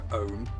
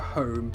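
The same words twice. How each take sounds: First: The word starts without any H sound. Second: The word starts with a clear H sound. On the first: "they don't say their H's" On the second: "they don't go home"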